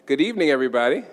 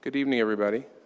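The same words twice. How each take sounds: First: It is said with lots of energy and enthusiasm. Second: It is said with little energy or enthusiasm. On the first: The speaker calls it right. "That's better" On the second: The speaker calls it wrong. "maybe I didn't say that with enough enough enthusiasm"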